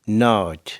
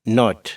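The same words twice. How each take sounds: First: The vowel is drawn out, nearly twice as long. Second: The vowel is short and clipped. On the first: "America में नॉट लंबा कर देते, दुगना तकरीबन लंबा कर जाते हैं" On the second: "यूके में"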